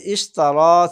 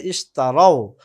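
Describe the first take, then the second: First: "ইশতারা" ending in a long open aa; former form, long a. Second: "ইশতারাও" closing in an ao glide; plural ao ending. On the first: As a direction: say "ইশতারা" loudly, holding the final aa. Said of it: "ইশতারা ছিল". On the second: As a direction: say "ইশতারাও" loudly, falling on the final rao. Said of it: "এখন হয়ে যাবে ইশতারাও". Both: Shown as a demonstration.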